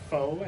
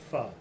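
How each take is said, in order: First: The vowel is long, like 'foe'. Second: The vowel is short, like 'fuh'. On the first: This is how the spelling suggests it. The speaker calls it wrong. "it looks like it would be pronounced faux" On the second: This is the accepted pronunciation. The speaker calls it right. "I do know that P H O is pronounced pho"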